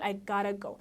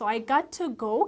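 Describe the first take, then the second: First: 'Got to' is run together as 'gotta'. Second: 'Got to' is said as two separate words. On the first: "ቱን ከጋት ጋር አንድ ላይ ሲሆን" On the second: "I got to go ከሚሉ"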